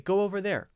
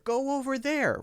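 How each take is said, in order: First: The linking w sound is light and unemphasized. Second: The linking w sound is strong and emphasized. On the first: The speaker calls it right. "But we do say" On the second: The speaker calls it wrong. "we don't focus on that W. We don't really say"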